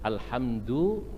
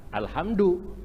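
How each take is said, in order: First: "Alhamdu" with a heavy Javanese D on "du"; Javanese pronunciation. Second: "Alhamdu" higher, with the D of Betawi "gundu"; Betawi-Sundanese pronunciation. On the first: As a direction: say "Alhamdu" as a Javanese reader would. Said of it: "orang Jawa". ("Alhamdu" dengan dal medok Jawa) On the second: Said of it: "Betawi, Sunda apa?". ("Alhamdu" dengan dal Betawi-Sunda) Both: Retold or imitated.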